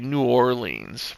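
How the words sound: The name is drawn out a little. This is how people in the Northeast say it. "We kind of drag it out a little bit"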